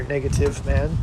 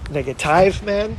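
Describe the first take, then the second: First: Said in the usual way. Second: Negative as nega-TIVE with a long eye; "negative" ending like "hive", drawn out; odd pronunciation. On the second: Shown as a demonstration. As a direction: slowly mispronounce negative to rhyme with five. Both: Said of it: "however you want to pronounce it".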